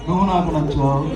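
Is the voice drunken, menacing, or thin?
thin. It is said in a thin, light voice. "గొంతెందుకు అమ్మ ఇంత సన్నగా ఇచ్చావు"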